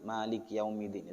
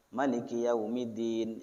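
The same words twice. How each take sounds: First: "Malik Yaumiddin" with a long first a in Malik; Asim's reading. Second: "Maliki Yaumiddin" with a short first a in Maliki; Nafi's reading. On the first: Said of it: "itu riwayat Asim". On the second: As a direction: keep the "Ma" of "Maliki Yaumiddin" short in a slow recitation. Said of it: "itu sudah riwayat Imam". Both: Shown as a demonstration.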